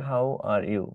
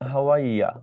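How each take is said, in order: First: The last word is said in full, 'you'. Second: The last word is reduced to 'ya'.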